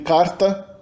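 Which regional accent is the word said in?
São Paulo. It is said in a São Paulo accent. "Em São Paulo a gente tem carta"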